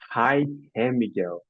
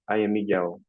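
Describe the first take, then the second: First: An H sound is added before the vowel. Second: The first word starts directly on the vowel. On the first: "I started using an A sound, H or R sound, before the vowel" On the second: "instead of saying"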